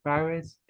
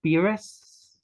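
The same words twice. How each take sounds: First: "Pires" tried with an open first vowel; alternative name pronunciation. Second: "Pires" tried with an ee first vowel, rising; tentative name pronunciation. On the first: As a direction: say "Pires" as PIE-riz, a second guess. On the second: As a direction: ask "Pires" as PEE-res, higher at the end. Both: Shown as a demonstration. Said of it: "might get the pronunciation wrong".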